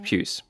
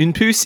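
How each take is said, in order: First: Said in the usual way. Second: "puce" said the French way, without a y glide; French pronunciation. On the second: Shown as a demonstration. Separating flea from colour, French "une puce". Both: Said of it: "une puce is not puce".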